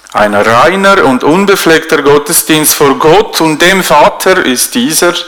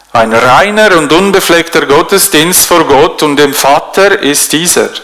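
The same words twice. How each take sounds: Both takes have the same delivery.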